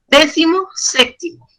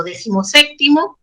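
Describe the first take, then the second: First: "Décimo séptimo" as two separate words, pause between; higher "Décimo", short break, then "séptimo"; split into two words. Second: Said in the usual way. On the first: Shown as a demonstration. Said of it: "dos palabras".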